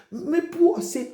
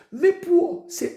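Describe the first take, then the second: First: High and drawn-out call, very slow; slow preaching call. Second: Higher, louder, still very slow; building preaching call. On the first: Preacher calling out for the poor to answer, slow and high. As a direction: stretch each word as a rallying call. Call before congregation response. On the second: Preacher rousing the congregation, louder and slow. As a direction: push the call bigger each time. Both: Acted.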